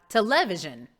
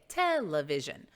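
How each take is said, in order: First: Television stressed on the second syllable, te-LE-vision; wrong-syllable stress. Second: Television stressed on TEL; correct first-syllable stress. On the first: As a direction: punch LE in "television", louder. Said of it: "and not television". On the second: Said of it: "No, we say television". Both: Shown as a demonstration.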